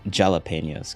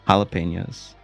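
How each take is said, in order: First: The word begins with a J sound. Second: The word begins with an H sound.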